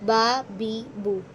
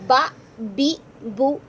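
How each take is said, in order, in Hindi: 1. स्वर छोटे, नरम और एक जैसे होते हैं। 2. स्वर झटके से काटे जाते हैं। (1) "नरमी से अदा करेंगे" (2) "ये नहीं करना, झटका दे के हो जाएगा"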